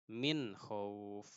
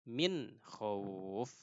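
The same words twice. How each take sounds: No difference in how they are said.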